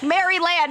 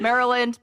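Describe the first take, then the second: First: The word is said fully, following its spelling. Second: The word is said in its usual reduced form. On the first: This is how the name looks when written. "but it's spelled like Maryland" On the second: This is how the name is actually said. "It's Maryland, Maryland"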